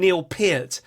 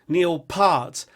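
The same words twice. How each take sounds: First: The surname does not rhyme with heart. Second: The surname rhymes with the word heart. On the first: "you'll hear someone like a Rush fan call him" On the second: "it's kind of like heart, but with a P"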